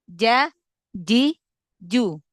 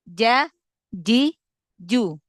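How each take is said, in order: First: The consonant is firm, like j. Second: The consonant is firm, like j.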